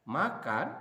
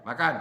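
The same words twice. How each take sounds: First: Makan said as a short question, punched loud; asking as a question. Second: Makan as a loud order; command. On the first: Teacher demonstrating to students, makan as a question. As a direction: ask makan as a question to the class. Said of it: "tanda tanya". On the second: Teacher showing students a command, loud makan. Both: Shown as a demonstration.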